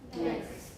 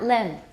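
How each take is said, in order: First: The word ends with a velar ng and th. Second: The word ends with a plain n sound. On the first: The speaker calls it right. "put a K in there" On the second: The speaker calls it wrong. "Not len"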